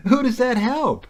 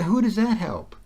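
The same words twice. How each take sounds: First: Higher and louder, hammering the question; emphatic repeat. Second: Said in the usual way. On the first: Real, not acted. Speaker to listener, pushing his point harder, emphatic. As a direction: press the question home, incredulous.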